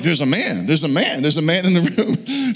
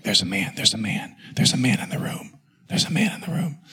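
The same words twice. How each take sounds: First: Voiced, sing-out mimicry of wife's warning; hammed-up panicked echo; mocking echo. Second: Imitating wife's bedside whisper; hushed, breath-only repeated warning; urgent whisper. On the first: Mocks her warning back at her. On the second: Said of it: "she whispers at me".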